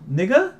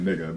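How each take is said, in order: First: "Nigga" very high and loud with a sharp rise; questioning lilt. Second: Said in the usual way. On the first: Shown as a demonstration. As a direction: squeak "Nigga" upward as a hesitant question. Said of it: "but if they say, like". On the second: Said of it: "most white people will get away with saying".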